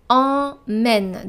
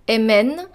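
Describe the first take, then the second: First: The first vowel is a nasal vowel. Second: The first vowel is oral, not nasal. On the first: The speaker calls it right. "it's emmène. Donc on utilise la voyelle nasale en" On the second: The speaker calls it wrong. "It's not emmène"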